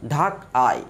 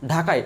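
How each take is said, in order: First: "ঢাকায়" broken as ঢাক, আয়; split into syllables. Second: Said in the usual way. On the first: Shown as a demonstration. Teacher showing the steps in a word, split into syllables. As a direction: separate the two beats of "ঢাকায়". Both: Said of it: "দেখেন দুইটা স্টেপে বা তিনটা".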